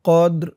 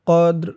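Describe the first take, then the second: No difference in how they are said.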